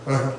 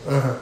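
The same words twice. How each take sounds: The two takes are said the same way.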